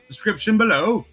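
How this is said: It is said in a put-on British accent.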